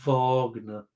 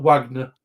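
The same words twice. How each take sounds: First: "Wagner" with a V and long ah; German-style Wagner. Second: "Wagner" with an English W and short a; English-style Wagner. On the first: Quizmaster echoes the contestant's correction, "Wagner" slowly with a German V. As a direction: stretch "Wagner" slowly into VAHG-ner. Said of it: "it's not Wagner. It's Wagner". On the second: Quizmaster shows the rejected version, "Wagner" with an English W. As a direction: say "Wagner" as WAG-ner, as spelt. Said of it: "it's not Wagner". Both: Shown as a demonstration.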